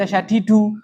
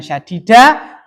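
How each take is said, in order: First: The word ends in the vowel u. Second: The word ends in the vowel a. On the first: The speaker calls it right. "karena itu dibaca syadidu" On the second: The speaker calls it wrong. "bukan syadida"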